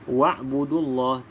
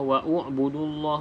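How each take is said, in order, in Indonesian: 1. Tidak ada vokal di antara wa dan b. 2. Vokal u terdengar di antara wa dan b. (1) "abaikan saja hamzah wasal ini dalam bacaan" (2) "tidak perlu kita baca"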